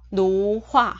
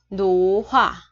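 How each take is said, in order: Both takes have the same delivery.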